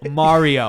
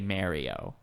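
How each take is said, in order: First: Mario is said with the standard pronunciation. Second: Mario is said with an East Coast pronunciation. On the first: The speaker calls it right. "He says Mario" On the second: The speaker calls it wrong. "People on the East Coast say Mario"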